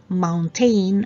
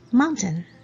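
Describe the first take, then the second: First: The word is said in a nonstandard way. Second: The word is said in the standard way. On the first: The speaker calls it wrong. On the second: The speaker calls it right.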